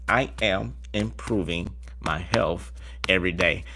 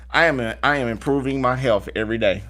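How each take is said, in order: First: Slower, softer and lower repeat; slow soft affirmation. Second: Said in the usual way. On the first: Shown as a demonstration. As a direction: savour each word calmly. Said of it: "affirmation repeated slow soft". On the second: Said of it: "affirmation, first take".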